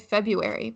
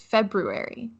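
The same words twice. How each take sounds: First: The first R is left out. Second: The first R is clearly pronounced. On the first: The speaker calls it wrong. "I don't. I just say February" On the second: The speaker calls it right. "you have to include the first R"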